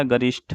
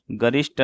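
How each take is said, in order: First: गरिष्ठ ending in breathy "shth"; aspirated ending. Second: गरिष्ठ ending in plain "sht"; no puff on the t of गरिष्ठ; unaspirated ending. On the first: Teacher correcting the word, गरिष्ठ with aspirated th. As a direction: puff the final th of गरिष्ठ. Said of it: "गरिष्ठ होता है". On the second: Teacher showing the mistake, गरिष्ठ with unaspirated t. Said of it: "गरिष्ठ नहीं होता". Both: Shown as a demonstration.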